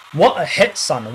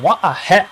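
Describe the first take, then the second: First: Excited. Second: High, loud exclamation; excited. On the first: Goal repeated. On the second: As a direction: shout it with joy. Repeated exclamation. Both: Real, not acted.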